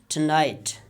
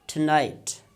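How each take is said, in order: The two takes are said the same way.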